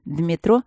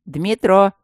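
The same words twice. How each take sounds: First: Said in the usual way. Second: Louder call of the name. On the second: Acted. Матвей зовёт Дмитро отойти от двери, громко. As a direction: call him to step aside. Matvey calls Dmitro aside.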